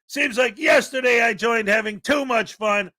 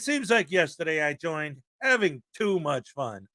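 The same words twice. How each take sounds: First: It is read plainly, without a special rhythm. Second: It is read with a deliberate, expressive rhythm. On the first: The speaker calls it wrong. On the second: The speaker calls it right.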